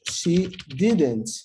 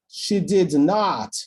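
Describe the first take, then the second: First: It is said in a calm, neutral way. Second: It is said emphatically, a little annoyed.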